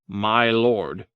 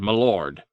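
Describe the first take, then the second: First: It is said crisply as two separate words. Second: It is slurred together into one word. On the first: The speaker sounds highborn. The speaker calls it wrong. "I said, my lord" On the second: The speaker sounds like a peasant. The speaker calls it right. "as if you had mud in your mouth"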